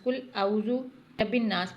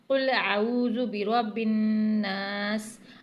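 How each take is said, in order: First: It is recited quickly, running the words together. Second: It is recited slowly, each sound carefully articulated. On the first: The speaker calls it wrong. "अक्सर लोग क्या गलती करते हैं जल्दबाजी में ... ये रवां हो गया" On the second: The speaker calls it right. "अब इसका सही पढ़ने का तरीका क्या है?"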